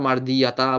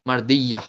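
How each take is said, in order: First: The word ends with a pronounced 'ta' sound. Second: The word ends on a vowel without 'ta'. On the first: The speaker calls it wrong. "কেউ আবার মার দিয়া তা বলবো না" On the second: The speaker calls it right. "এটা মার দিয়া"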